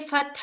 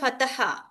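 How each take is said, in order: First: The word is said in two syllables. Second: An extra vowel makes the word three syllables. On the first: The speaker calls it right. "you must pronounce clearly" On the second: The speaker calls it wrong. "Don't say fataha"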